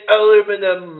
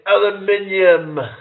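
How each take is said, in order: First: It is said the American way, four syllables. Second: It is said the British way, five syllables.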